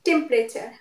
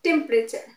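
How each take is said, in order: First: The middle vowel is silent. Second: The same.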